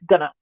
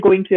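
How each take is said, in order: First: It is said as one reduced, blended word. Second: It is said as two full words. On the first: "I'm going to say gonna" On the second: "I'm not going to say going to anymore"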